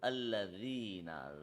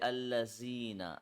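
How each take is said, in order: First: The middle consonant is a soft 'dh' sound. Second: The middle consonant is a hard 'z' sound. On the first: The speaker calls it right. "So this is Alladhina, Zal" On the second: The speaker calls it wrong. "they are making the zal harder"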